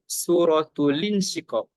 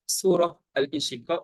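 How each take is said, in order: First: The first word ends in t, linked into tul. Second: The first word ends in h before al-insyiqaq. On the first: The speaker calls it right. "Kita kena sebut suratul insyiqaq" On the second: The speaker calls it wrong.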